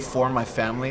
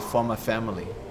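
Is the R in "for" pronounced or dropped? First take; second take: pronounced; dropped. First: The R in "for" is pronounced. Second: The R in "for" is dropped. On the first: "When they say for my family" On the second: "They don't say R"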